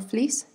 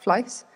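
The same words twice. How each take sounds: First: The vowel is a plain 'ee' sound. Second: The vowel is closer to an 'eye' sound. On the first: "or fleece" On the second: "sounds like fleece"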